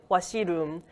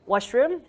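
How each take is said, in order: First: Korean-accented "washiroom", syllable by syllable; Konglish accent. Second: Said in the usual way. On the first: Shown as a demonstration. Teacher showing how English speakers mimic Korean people, Konglish accent. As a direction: say "washiroom" with an added i, Korean style. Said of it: "Konglish is like washiroom". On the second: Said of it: "when English speakers mimic Korean people".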